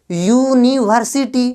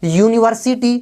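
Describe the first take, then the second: First: यूनिवर्सिटी slowly, syllable by syllable; pronunciation demo. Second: Said in the usual way. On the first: Shown as a demonstration. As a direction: stretch out यूनिवर्सिटी, starting with a long "yoo". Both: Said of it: "क्या उच्चारण कर रहे हो".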